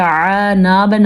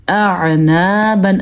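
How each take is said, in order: First: اعنابن begun straight on a throaty ع; hamza lost in ain. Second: Slow اعنابن with both throat sounds clear; short hamza, squeezed ع, long نا in اعنابن; hamza and ain distinct. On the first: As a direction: start اعنابن as "ʕa-naaban", no separate hamza. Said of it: "آپ بالکل غلط پڑھتے ہیں". (اعنابن، ہمزہ کے بغیر عین سے شروع) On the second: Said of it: "واضح کر کے الگ کر کے پڑھا ہے". (اعنابن، ہمزہ اور عین واضح) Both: Shown as a demonstration.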